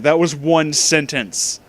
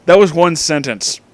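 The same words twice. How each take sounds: First: Slower, spelling it out in disbelief; slow, deliberate repeat. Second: Said in the usual way. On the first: Shown as a demonstration. Rereading the fanfic aloud, slowly stressing disbelief. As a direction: drag it out word by word. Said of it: "no, there's a period at the end".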